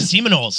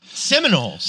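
First: The name sounds like 'semen holes'. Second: The name sounds like 'Seminoles'. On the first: The speaker calls it wrong. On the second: The speaker calls it right.

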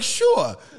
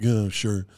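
First: It sounds upbeat and positive. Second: It sounds salty and annoyed.

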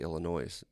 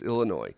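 First: The final s is sounded at the end. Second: The final s is silent at the end. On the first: The speaker calls it wrong. "When people say Illinois. Yep, I hate it" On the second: The speaker calls it right. "Well, it's Illinois"

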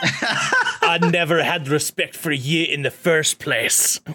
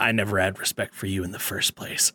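First: It is said in a Scottish accent. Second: It is said in the speaker's normal accent.

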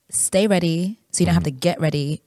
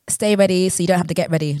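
First: The words are spoken at a slow pace. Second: The words are spoken at a normal pace. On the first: "Say it slower" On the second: "say it again"

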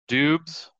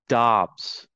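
First: The vowel sounds like 'uh' as in 'cup'. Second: The vowel sounds like 'ah' as in 'father'. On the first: The speaker calls it wrong. "Dubs is not the proper pronunciation" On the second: The speaker calls it right. "It is Dobbs. Kind of like D-A-H-B-S"

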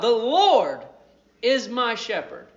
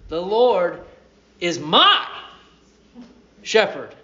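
First: The word Lord is stressed. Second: The word my is stressed.

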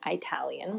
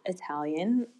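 First: The word is pronounced in the American way. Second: The word is pronounced without American styling.

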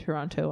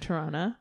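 First: The second T is clearly pronounced. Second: The second T is dropped. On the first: "I'm also pronouncing the second T in Toronto on purpose" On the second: "Instead of saying Toronto"

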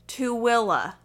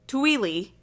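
First: The name is said unlike its spelling. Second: The name is said the way it is spelled. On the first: The speaker calls it right. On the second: The speaker calls it wrong. "Not Tooele. Tooele, as it looks"

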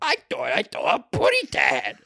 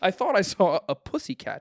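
First: It is said in a silly cartoon voice. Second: It is said in a plain reading voice.

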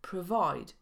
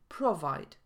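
First: The first vowel is a reduced schwa. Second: The first vowel is a full o sound. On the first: The speaker calls it right. "ale wymawiamy schwa i provide" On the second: The speaker calls it wrong. "a nie provide"

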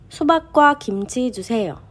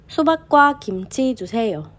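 No difference in how they are said.

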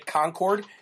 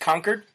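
First: It is pronounced the way outsiders say it. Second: It is pronounced the way locals say it. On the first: The speaker is not from the area. The speaker calls it wrong. "do not say Concord" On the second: The speaker is from the area. The speaker calls it right. "It's Concord"

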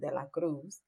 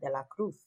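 First: The name is said in a non-Spain Spanish accent. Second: The name is said in a Spain Spanish accent. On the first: "as opposed to" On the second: "she was from Spain ... she would pronounce it De La Cruz"

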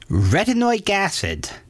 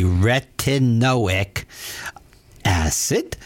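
First: It is said at a normal speaking pace. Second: It is said slowly and deliberately.

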